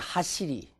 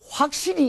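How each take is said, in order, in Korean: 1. 첫 음절은 단모음이에요. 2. 첫 음절에는 w 활음이 있어요.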